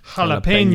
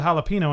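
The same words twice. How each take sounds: First: The word is said with a strong Spanish pronunciation. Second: The word is said with plain English pronunciation.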